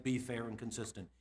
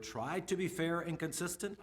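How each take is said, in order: First: Said in the usual way. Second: Slow read with a rise; "try" included, drawn out with a rising end; first wording. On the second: Shown as a demonstration. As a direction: read out "try to be fair and consistent" slowly, ending up. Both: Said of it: "I guess I should have said".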